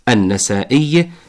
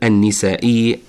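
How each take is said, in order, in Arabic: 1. تأتي بعد النون حركة 'a'. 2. تأتي بعد النون حركة 'i'. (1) "بفتح النون" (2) "ولا نقل النسائي بكسرها"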